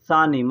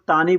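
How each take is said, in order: First: The word starts with an s sound. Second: The word starts with a t sound. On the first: This is the form matching how it is written. "लेकिन होता है सानी सा और नून" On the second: This is how people say it in everyday speech. "बोलने के लिए लोग तानी बोलते हैं"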